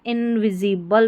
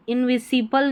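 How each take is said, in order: First: इनविजिबल with a buzzing z, in-vi-zi-bal; इनविजिबल as the right z version; correct pronunciation. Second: इनविजिबल with a hissed s, in-vi-si-bal; इनविजिबल as the wrong s version; wrong pronunciation. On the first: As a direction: say इनविजिबल with z in the middle. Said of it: "एस का उच्चारण ज है यहाँ पर". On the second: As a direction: say इनविजिबल with s, not z. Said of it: "इनविजिबल नहीं पढ़ना है". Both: Shown as a demonstration.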